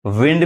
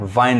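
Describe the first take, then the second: First: विंड with short 'i', as 'vind'; taught pronunciation. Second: वाइंड with a long 'ai'; alternative pronunciation. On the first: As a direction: say विंड like the noun 'wind'. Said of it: "विंड भी पढ़ाता है". (विंड में छोटी 'इ' बोलें) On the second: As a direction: say वाइंड like the verb 'wind'. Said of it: "वाइंड भी पढ़ाता है". (वाइंड में 'आइ' की आवाज़ बोलें) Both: Shown as a demonstration.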